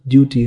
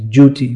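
First: The word begins with a plain 'd' sound. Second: The word begins with a 'j' sound.

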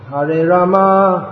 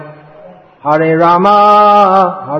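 First: The last vowel of Rama is kept short. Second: The last vowel of Rama is drawn out long. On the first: It is the intended name in the mantra. The speaker calls it right. "So, Hare Rama" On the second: It names the goddess Lakshmi. The speaker calls it wrong. "pronounced in such a way that it comes out more like Hare Rama"

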